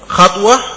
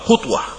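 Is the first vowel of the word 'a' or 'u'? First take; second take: a; u. First: The first vowel is an open 'a'. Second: The first vowel is a rounded 'u'. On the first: It means a single movement of the foot. "خطوة بالفتح نقل القدم" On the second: It means the distance between the two feet. "المسافة بين القدمين بالضم"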